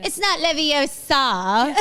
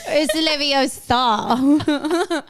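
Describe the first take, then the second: First: "Leviosa" slow, laughing; Hermione impression. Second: "Leviosa" drawn out very slowly; Hermione impression. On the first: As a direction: correct "Leviosa" the way Hermione does.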